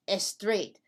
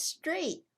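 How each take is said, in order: First: "estraight" with an extra "eh" before the S; added E before S. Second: Emphatic one-syllable "straight", no vowel before it; clean initial S. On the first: Teacher states the mistake to be corrected, added E before S. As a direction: say "estraight" as two syllables, es-TRAIGHT. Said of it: "No, it's not". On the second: Teacher corrects the wrong word, clean initial S. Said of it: "The word is straight". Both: Shown as a demonstration.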